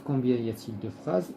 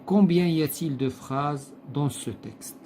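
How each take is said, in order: First: Said in the usual way. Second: Slow, deliberate reading of the question. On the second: Shown as a demonstration. Teacher reading the exercise question aloud, slowly. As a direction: spell the question out slowly for the class.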